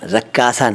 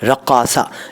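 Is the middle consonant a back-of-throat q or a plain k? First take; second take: plain k; throat q. First: The middle consonant is a plain k sound. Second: The middle consonant is a back-of-throat q sound. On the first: The speaker calls it wrong. "रक्कासा नहीं यार" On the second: The speaker calls it right. "क़ा बोलना सीख लो यार"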